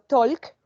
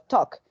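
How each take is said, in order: First: The L sound is pronounced. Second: The L sound is silent. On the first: The speaker calls it wrong. "No digo talk" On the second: The speaker calls it right. "sino talk"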